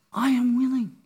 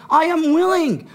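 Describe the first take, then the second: First: Gentle reassurance. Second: "willing" punched, higher and louder; preacher's emphatic restatement of "willing". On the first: Retold or imitated. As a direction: say it calmly, as a promise. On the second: Shown as a demonstration. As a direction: hit "willing" hard and lift the pitch.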